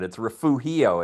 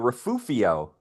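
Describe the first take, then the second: First: The middle consonant is an H sound. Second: The middle consonant is an F sound. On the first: This is how it is really said. The speaker calls it right. "it's not an F sound, it's an H sound" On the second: This is how some longtime locals say it. The speaker calls it wrong. "old timers around Santa Barbara, have a tendency called refugio"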